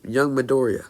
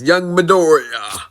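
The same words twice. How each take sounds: First: Said in the usual way. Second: Higher, louder heroic hero voice; booming All Might. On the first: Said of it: "and he says". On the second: Acted. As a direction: call out like a big booming hero. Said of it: "All Might appears and says".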